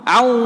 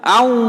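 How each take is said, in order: No difference in how they are said.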